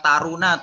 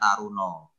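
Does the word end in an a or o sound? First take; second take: a; o. First: The final vowel sounds like a. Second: The final vowel sounds like o. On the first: "taruna tulisannya" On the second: "dalam bahasa Jawa dibacanya Taruno"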